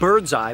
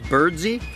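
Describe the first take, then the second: First: The name ends with an 'eye' sound. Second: The name ends with an 'ee' sound. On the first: The speaker calls it wrong. "it looks like Birdseye" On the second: The speaker calls it right. "but apparently was pronounced Birdsey"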